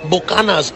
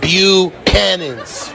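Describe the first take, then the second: First: "Buchanan's" said as Spanish "boo-KAH-nas"; mock Spanish accent. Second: Slow, deliberate "Buchanan's" as "byoo-CAN-ins"; correct English pronunciation. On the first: Imitating English speakers ordering a bottle, Spanish accent. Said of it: "put a Spanish accent". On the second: Shown as a demonstration. Lesson after mocking the Spanish version, slow English "Buchanan's". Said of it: "on a fucking Scottish word".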